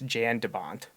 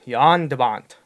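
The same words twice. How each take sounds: First: The name is said with an American English pronunciation. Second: The name is said with a Dutch pronunciation. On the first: The speaker calls it wrong. "If you're gonna butcher it in American English" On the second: The speaker calls it right. "Dutch way to say his name"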